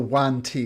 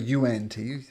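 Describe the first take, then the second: First: The name begins with a single 'wahn' syllable. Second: The name begins with two syllables, 'yoo-ahn'. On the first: The speaker calls it right. "this is called a one T" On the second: The speaker calls it wrong. "It's not a U N T, which is tempting to read it like that"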